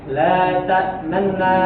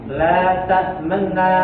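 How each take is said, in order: Both takes have the same delivery.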